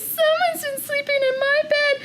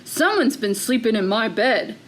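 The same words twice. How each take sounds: First: It is said in a tiny, small voice. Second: It is said in a big, deep voice. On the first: "in his wee little voice" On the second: "in a great big voice"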